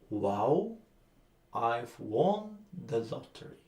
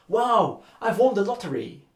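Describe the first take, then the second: First: It is said in a flat, neutral tone. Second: It is said loudly, quickly and joyfully.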